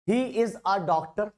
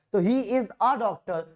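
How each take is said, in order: First: Said in the usual way. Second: A stretched and leaned on in he is a doctor; slow teaching read stressing a; stress on the article. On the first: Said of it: "ए कब लगाते हैं?". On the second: Shown as a demonstration. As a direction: give the little word a a clear push, slowly. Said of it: "इसलिए ए आया".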